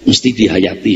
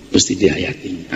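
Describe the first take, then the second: First: Mesti dihayati said with a lift on dihayati; urging stress. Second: Mesti dihayati repeated softer and lower, leaning on mesti; a hushed second Mesti dihayati. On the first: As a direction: press the point, rising on dihayati. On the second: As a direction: echo it quietly to let it sink in. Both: Shown as a demonstration.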